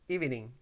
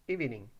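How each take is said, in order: Both takes have the same delivery.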